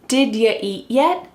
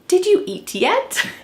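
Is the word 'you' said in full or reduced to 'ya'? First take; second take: reduced; full. First: The word 'you' is reduced to 'ya'. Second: The word 'you' is said in full. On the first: "Instead, she says" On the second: "But do you think we say it like this? Nope"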